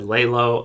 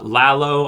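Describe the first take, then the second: First: The name sounds like 'laying low'. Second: The first syllable has an open 'ah' vowel. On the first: The speaker calls it wrong. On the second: The speaker calls it right.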